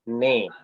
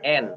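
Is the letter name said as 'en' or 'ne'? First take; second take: ne; en. First: The vowel comes after the consonant. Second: The vowel comes before the consonant. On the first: The speaker calls it right. "tapi ne" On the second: The speaker calls it wrong. "Bukan N"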